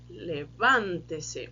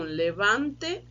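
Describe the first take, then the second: First: "levante-se" very slow, stress on the "van"; slow stress demo. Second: Said in the usual way. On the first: Shown as a demonstration. Teacher contrasting "levante" with "levante-se" for students. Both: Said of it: "olha o som".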